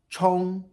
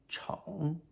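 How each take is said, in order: First: The pitch stays high and level. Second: The pitch dips low then rises.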